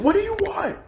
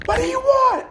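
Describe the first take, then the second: First: Mock scream. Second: Very high, louder screamed repeat of "What do you want?"; mock scream. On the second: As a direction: push the second "want" up into a full shriek. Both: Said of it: "he's just screaming".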